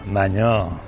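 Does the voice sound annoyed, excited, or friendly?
annoyed. It sounds irritated and reproachful. Complaining about an unwelcome prank. "Que un maño te gaste una broma y no te gusta"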